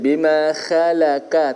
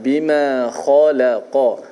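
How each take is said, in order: First: The kha sound is thin and light. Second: The kha sound is thick and heavy. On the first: The speaker calls it wrong. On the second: The speaker calls it right.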